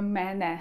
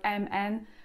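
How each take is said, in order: First: Each letter name ends with the vowel e. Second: Each letter name starts with the vowel e. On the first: This is how the letters are named in Turkish. "tak Turcy mówią" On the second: This is how the letters are named in Polish. "tak jak my w polskim mówimy na przykład"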